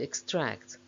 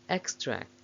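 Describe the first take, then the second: First: The stress is on the second syllable. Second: The stress is on the first syllable. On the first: It is used as a verb. "main stress of the verbs is on the second syllable" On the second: It is used as a noun. "main stress of the nouns is on the first syllable"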